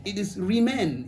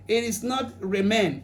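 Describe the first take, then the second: First: Remain said as "ri-MAIN" with a short i, the corrected way; corrected pronunciation. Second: Remain said as "re-MAIN" with an open e, the wrong way; wrong pronunciation. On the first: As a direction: say remain with "ri" in the first syllable, as the wife corrects. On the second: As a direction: say remain with "reh" in the first syllable. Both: Retold or imitated. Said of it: "this is how you pronounce this one".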